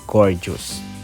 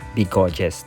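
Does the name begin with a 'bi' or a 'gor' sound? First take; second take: gor; bi. First: It sounds like the English word gorgeous. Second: It has an extra 'bi' sound at the start. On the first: It means beautiful. The speaker calls it right. "the proper pronunciation is gorgeous" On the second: It is the name many people got used to. The speaker calls it wrong. "yung bigoges ang nakasanayan ng mga iba and ako man din"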